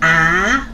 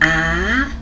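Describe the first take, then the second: First: The pitch rises from middle to high. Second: The same.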